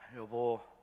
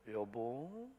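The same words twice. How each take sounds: First: The pitch stays flat. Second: The pitch is raised slightly.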